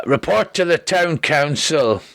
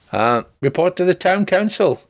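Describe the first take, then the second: First: Slow, drawn-out messenger call by accident; runner's call that came out like Shrek. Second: Said in the usual way. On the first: Acted. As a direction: read the note slow and heavy. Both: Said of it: "apparently I've turned into Shrek".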